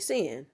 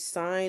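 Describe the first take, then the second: First: The vowel is short, rhyming with 'tin'. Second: The vowel is long, rhyming with 'fine'. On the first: The speaker calls it wrong. "don't say sin" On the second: The speaker calls it right. "it's always sine of x"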